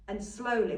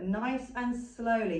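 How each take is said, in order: First: Said in the usual way. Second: Drawn-out "Nice and slowly", each word stretched; slow demo. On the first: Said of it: "as slow as this". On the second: Shown as a demonstration. Instructor showing handlers how slowly to lift. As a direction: ease it out slowly, like lifting the dog. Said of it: "You wanna go as slow as this".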